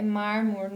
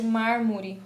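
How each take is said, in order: First: "mármore" said as "mármor"; apocope. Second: Said in the usual way. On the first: Shown as a demonstration. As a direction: end "mármore" on the R, without the final E. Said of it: "suprimiram aqui a letra E". ("mármore" sem o E final) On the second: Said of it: "no lugar de".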